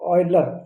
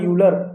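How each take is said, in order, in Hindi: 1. नाम 'oy' ध्वनि से शुरू होता है। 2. नाम 'you' ध्वनि से शुरू होता है। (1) "it's a ऑयलर" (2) "it is not a यूलर"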